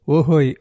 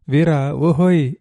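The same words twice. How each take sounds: First: A sing-song answering hail; lilting call back. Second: Slow, drawn-out call across the beach. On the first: Girl answering her sweetheart's call, lilting hail. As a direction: toss the ohoy back playfully. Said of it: "ఆమె కోకువలాడే గొంతుతో". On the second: Fisherman calling his sweetheart from the boat, long loud hail. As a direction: stretch the ohoy out to reach her. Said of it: "అని పిలిచాడు". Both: A narrator's reading.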